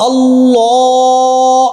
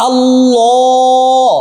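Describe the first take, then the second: The two takes are said the same way.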